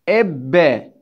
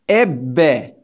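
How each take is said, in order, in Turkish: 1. B sesi uzun tutulur, çift okunur. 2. B sesi uzun tutulur, çift okunur.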